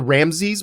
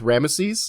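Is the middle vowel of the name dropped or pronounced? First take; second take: dropped; pronounced. First: The middle vowel is dropped, giving two syllables. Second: The middle vowel is pronounced, giving three syllables. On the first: "it's kind of turned into Ramses" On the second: "they actually pronounced the middle E with Ramesses"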